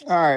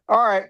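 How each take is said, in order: First: Said in the usual way. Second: Breathy whispered aside, a little higher; whispered all right. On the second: Real, not acted. Host whispers a quick aside to chat, whispered.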